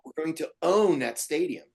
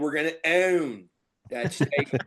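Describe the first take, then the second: First: It is said in a neutral accent. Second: It is said in a Philadelphia accent.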